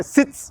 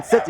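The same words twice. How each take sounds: First: Sits with a clear final s, not sit. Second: Said in the usual way. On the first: Shown as a demonstration. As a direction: end the command on a hissed s: sits. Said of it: "you say sits". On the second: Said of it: "instead of saying sit".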